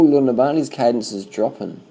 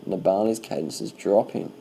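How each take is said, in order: First: Quick, higher, louder call of alarm; excited call-out. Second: Slow repeat. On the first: Commentator spotting Nibali slowing on the climb, excited. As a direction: blurt it out as you spot it happening. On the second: Commentator repeating to himself as Nibali slows, slow and thoughtful. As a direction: repeat it slowly as it sinks in. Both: Real, not acted.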